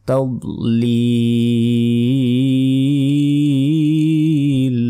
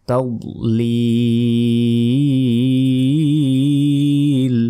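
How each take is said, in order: The two takes are said the same way.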